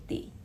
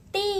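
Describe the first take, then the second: First: TI short and light; "ti" brief and weightless; light neutral tone. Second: TI long and weighted; "Ti" strong and drawn out; heavy full tone. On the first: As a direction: cut TI off as if braking. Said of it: "itu cepat". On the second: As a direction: hold TI with full emphasis. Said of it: "kata pertama itu kalian lebih berat". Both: Shown as a demonstration.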